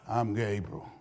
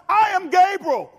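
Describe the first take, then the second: First: It is said flatly, without emphasis. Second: It is said dramatically, with strong emphasis.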